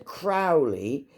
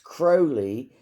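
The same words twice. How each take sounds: First: The name does not rhyme with holy. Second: The name rhymes with holy. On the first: This is the usual way the name is said. "that's how his name is pronounced" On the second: This is the way the man himself liked it said. "because it rhymed with holy"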